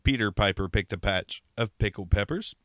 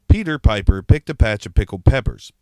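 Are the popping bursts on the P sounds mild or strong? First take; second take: mild; strong. First: The P sounds cause only mild popping bursts. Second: The P sounds cause strong popping bursts. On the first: The speaker calls it right. "With a windscreen, ... Not nearly as bad" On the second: The speaker calls it wrong. "without a windscreen on it. Pops really bad"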